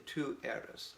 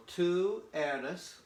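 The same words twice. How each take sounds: First: Said in the usual way. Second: Tú eres drawn out slowly, higher; slow model phrase. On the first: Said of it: "very correct and specific". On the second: Shown as a demonstration. Teacher modelling tú eres slowly for the class. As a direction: spell it out for learners. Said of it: "makes it you".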